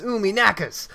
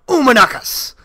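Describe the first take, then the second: First: It is said as a plain, pained complaint. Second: It is shouted with exaggerated, gibberish-like syllables.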